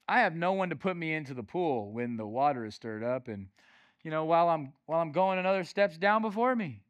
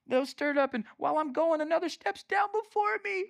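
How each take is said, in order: First: Said in the usual way. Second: High, self-pitying whine; mock victim. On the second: Preacher mimicking the man by the pool, mock self-pity. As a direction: whine it as the poor victim, pitched way up. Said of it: "I'm a victim".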